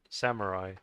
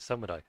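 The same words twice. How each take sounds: First: It is said with an English-style pronunciation. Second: It is said with a Japanese-style pronunciation. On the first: "I know some people say s- samurai" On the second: "if you want to pronounce it like the way the Japanese do"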